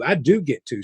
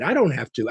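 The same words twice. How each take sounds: First: "do get" stressed as a concession. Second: "have" stressed as the word to drop. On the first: Volunteer agrees with her leader, stress on "do get". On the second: Volunteer concedes to her leader, stress on "have". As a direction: lean on "have" while conceding. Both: Retold or imitated. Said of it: "She was like".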